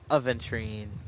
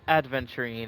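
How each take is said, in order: First: No 'd' sound comes before the 'v'. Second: A 'd' sound comes before the 'v'. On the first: The speaker calls it right. "it's aventurine" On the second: The speaker calls it wrong. "Not adventurine"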